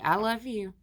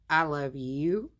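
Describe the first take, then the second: First: The voice falls at the end like a statement. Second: The voice rises at the end like a question. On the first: The speaker sincerely declares love. The speaker calls it right. "That sounds good" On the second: The speaker doubts or questions the love. The speaker calls it wrong. "that don't sound too good. The question mark changes the whole meaning"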